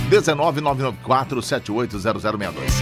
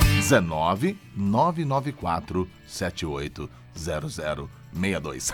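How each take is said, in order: First: The number is said at normal speed. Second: The number is said slowly.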